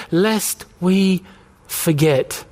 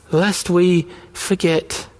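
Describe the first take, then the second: First: Said in the usual way. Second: Slow, weighty repeat of lest we forget; slow solemn echo. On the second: Shown as a demonstration. Pastor echoing the refrain to the congregation, slow and solemn. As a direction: let each word land slowly. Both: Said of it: "repeated line echoed next".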